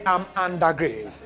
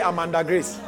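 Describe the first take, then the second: First: The phrase is said slowly and deliberately. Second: The phrase is said quickly, run together. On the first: It means living in a state of divine grace. The speaker calls it right. "Yeah. Ah, you now got it, right?" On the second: It sounds like a person named Grace. The speaker calls it wrong. "Otherwise you will say, I'm under grace. No, it's not a human being"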